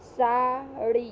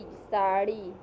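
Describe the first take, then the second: First: साड़ी said slowly with the long आ and ई held out; साड़ी slowly, each vowel held long; drawn-out vowel. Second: Said in the usual way. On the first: Shown as a demonstration. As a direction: stretch every vowel of साड़ी. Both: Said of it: "इसमें कम समय लगा".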